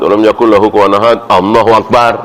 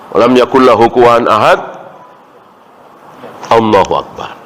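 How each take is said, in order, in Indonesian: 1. Langsung menyambung ke Allahu akbar. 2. Ada jeda sebelum Allahu akbar. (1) "jadi tidak benar kalau misalnya baca" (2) "Jadi ada jeda"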